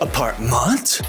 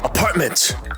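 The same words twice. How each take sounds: First: The last syllable sounds like ment. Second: The last syllable sounds like mint. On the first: The speaker calls it wrong. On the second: The speaker calls it right. "MENT는 mint입니다"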